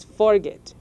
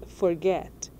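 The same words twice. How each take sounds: First: "forget" punched on the first syllable, FOR; wrong stress, FORget. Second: "forget" with the stress on the last syllable, GET; stress on second syllable. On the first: Teacher showing learners how not to say it, "forget" wrongly stressed on FOR. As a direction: say "forget" front-stressed and louder, FOR-get. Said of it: "Você não diz forget". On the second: Teacher showing learners the verb as it is said, "forget" stressed on GET. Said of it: "você diz forget". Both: Shown as a demonstration.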